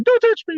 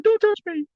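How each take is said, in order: First: High squeaky "Don't touch me" with a pout; high comic flinch; Stewie impression. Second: High squeaky nervous "Don't touch me"; high-pitched comic flinch; Stewie impression. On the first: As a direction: squeal it like the Mad TV kid again. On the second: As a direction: squeal it like the Mad TV kid. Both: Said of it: "I'll do that Stewie thing".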